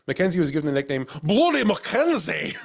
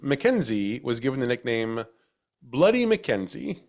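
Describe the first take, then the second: First: It is read in a put-on Scottish accent. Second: It is read in the speaker's ordinary accent.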